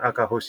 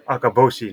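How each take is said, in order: First: The middle consonant is an h sound. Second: The middle consonant is a b sound. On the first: This is the reading the person actually uses. The speaker calls it right. "not Akahoshi" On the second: This is the reading that comes to mind from the kanji. The speaker calls it wrong. "you're thinking Akaboshi"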